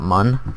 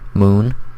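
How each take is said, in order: First: The vowel is a short 'uh' sound. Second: The vowel is a long 'oo' sound. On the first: The speaker calls it wrong. "not mun" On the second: The speaker calls it right. "the way you pronounce it is moon"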